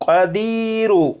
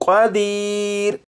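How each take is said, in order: First: The word ends with a short 'u' vowel. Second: The word ends on a consonant, with no vowel. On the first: The reader continues into the next verse. "क़दीर नहीं पढ़ेंगे बल्कि क़दीरु" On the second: The reader stops at the end of the verse. "इसे वक्फ में पढ़ेंगे"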